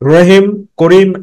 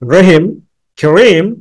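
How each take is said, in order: First: The names are run together without pausing. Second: There is a short pause after Rahim. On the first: The speaker lacks presentation skill. The speaker calls it wrong. "Presentation skill নাই" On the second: The speaker has presentation skill. The speaker calls it right. "তোমার presentation skills রয়েছে"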